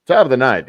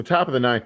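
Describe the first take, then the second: First: Loud ballpark announcer; baseball announcer voice. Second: Said in the usual way. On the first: Pretend. Host breaking into sports commentary, baseball announcer voice. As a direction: punch it out like a baseball play-by-play caller. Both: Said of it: "I'm gonna do this in my baseball voice".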